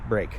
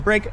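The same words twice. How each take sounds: First: It is said flatly, like ordinary casual speech. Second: It is said with a slightly higher, livelier pitch. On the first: The speaker calls it wrong. "where it sounds exactly like everyday speech" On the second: The speaker calls it right. "slightly higher pitched"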